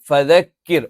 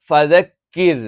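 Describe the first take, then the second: No difference in how they are said.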